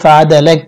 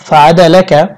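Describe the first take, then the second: First: The phrase ends on a bare k sound. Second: The phrase ends with a short a vowel. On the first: The reader stops at the end of the verse. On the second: The reading continues without stopping.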